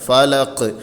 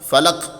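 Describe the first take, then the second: First: The final consonant ends with an echoing bounce. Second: The final consonant stops abruptly without echo. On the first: The speaker calls it right. "ആ മുഴക്കം കണ്ട് കേൾക്കണം" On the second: The speaker calls it wrong. "എന്ന് പറഞ്ഞ് നിർത്തലല്ല"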